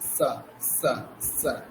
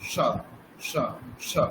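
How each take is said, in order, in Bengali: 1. s ধ্বনিটি জিহ্বা দাঁতে ঠেকিয়ে করা হয়। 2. s ধ্বনিটি জিহ্বা তালুতে ঠেকিয়ে করা হয়। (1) "তারপরে দন্তস্ব উচ্চারণ করছি" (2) "আমি যদি তালব বসা উচ্চারণ করি"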